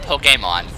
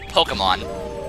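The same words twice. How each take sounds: First: The first part does not sound like polka. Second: The first part sounds like the word polka. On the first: "and now I'm pronouncing it Pokemon" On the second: "I was calling it Pokemon, like Polka, like the dance"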